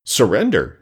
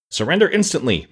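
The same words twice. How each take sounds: First: A touch of disbelief in the echoed word; astounded echo. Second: A mock-stern demand, higher and pushed. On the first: Acted. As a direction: repeat it as if you cannot believe your ears. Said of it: "echoed the man, astounded". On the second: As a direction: demand surrender like a girl playing the fierce general. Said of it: "frowning as terribly as her pretty face would allow".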